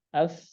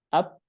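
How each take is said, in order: First: The final consonant lets breath flow audibly. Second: The final consonant stops the air completely. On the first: The speaker calls it right. "Harus ada nafasnya" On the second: The speaker calls it wrong. "tidak boleh syiddah ya. Jangan up"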